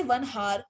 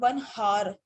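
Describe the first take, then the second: First: "one hour" with hour said as "har"; sounded h. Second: "one hour" with hour said as "our"; silent h. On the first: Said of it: "you will not say". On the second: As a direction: say hour in "one hour" without any h. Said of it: "you will say". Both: Shown as a demonstration.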